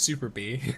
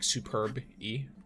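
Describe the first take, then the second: First: The name is split as 'super' plus 'bee'. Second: The name is split as 'superb' plus 'E'. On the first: "But I pronounce it as Super Bee" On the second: "Like Superb E"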